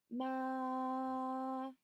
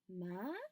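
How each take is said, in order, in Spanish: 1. El tono se mantiene alto y plano todo el tiempo. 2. El tono sube como en una pregunta. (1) "primer tono, ... Simplemente es con que sea un tono sostenido" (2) "El segundo tono ... como si preguntaran"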